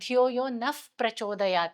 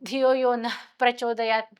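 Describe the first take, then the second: First: The word before 'prachodayat' ends in an f-like sound. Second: The word before 'prachodayat' ends in an h sound. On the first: Saying it this way eases the breath effort. The speaker calls it right. "Phonetic rules apply ಮಾಡಿದಾಗ" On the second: Saying it this way takes a lot of breath effort. The speaker calls it wrong. "Is a lot of effort"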